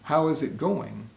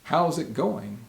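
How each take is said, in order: First: 'How is' is said as two separate words. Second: 'How is' is contracted into one syllable. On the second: "we'll more commonly say"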